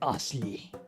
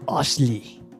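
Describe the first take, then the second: First: The name is said quietly. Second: The name is said loudly.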